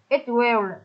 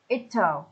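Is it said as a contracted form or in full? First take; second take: full; contracted. First: Two full words, will clearly pronounced. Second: Contracted form, will reduced to l. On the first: "Ở chỗ it will" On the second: "chúng ta sẽ nói vần qua là it'll"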